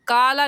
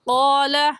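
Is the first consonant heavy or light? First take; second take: light; heavy. First: The first consonant is light, lips not rounded. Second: The first consonant is heavy, with rounded lips. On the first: The speaker calls it wrong. "काला नहीं कहेंगे" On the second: The speaker calls it right. "होंठों को गोल करके"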